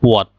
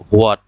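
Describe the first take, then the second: First: "what" as "wot", with no h; correct pronunciation. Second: হোয়াট opening on a sounded h, "ho-at"; common mispronunciation. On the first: Teacher gives learners the correct pronunciation, "what" without h. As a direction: start "what" on a plain w, "wot". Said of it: "হোয়াটের সঠিক উচ্চারণটা হচ্ছে". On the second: Teacher questions the common way of saying it, mispronounced with an h. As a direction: say হোয়াট as "hwaat". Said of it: "এটা কি আসলে সঠিক উচ্চারণ কিনা". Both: Shown as a demonstration.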